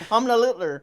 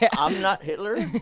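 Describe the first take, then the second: First: The first part sounds like one word, 'Hamna'. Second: The first part sounds like the words 'I'm not'. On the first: The name is read as a traditional German surname. The speaker calls it right. "he pronounces it different" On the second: The name is read as a plain English sentence. The speaker calls it wrong. "that's not how you pronounce it"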